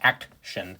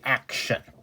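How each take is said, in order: First: A separate T sound is pronounced before the ending. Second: The ending is pronounced as a shun sound. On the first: The speaker calls it wrong. "You don't say action. You shouldn't" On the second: The speaker calls it right. "It should be action"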